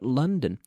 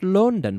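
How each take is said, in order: First: The first vowel sounds like 'uh' in funny. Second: The first vowel sounds like an 'o'. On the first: The speaker calls it right. "but London" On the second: The speaker calls it wrong. "not London"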